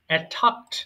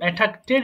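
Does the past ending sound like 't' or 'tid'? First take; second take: t; tid. First: The ending is a single 't' sound. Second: The ending adds an extra 'tid' syllable. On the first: The speaker calls it right. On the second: The speaker calls it wrong.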